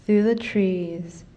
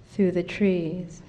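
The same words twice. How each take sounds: The two takes are said the same way.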